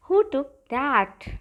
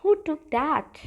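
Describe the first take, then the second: First: Very slow, word by word; slow repeat. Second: Said in the usual way. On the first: Shown as a demonstration. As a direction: repeat it slowly for students to copy. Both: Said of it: "कहिए".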